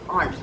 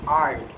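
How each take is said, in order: First: It is said with a British accent. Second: It is said with an American accent. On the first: "In British English, it is aren't, like uncle's aunt" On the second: "But in the American English, it is aren't"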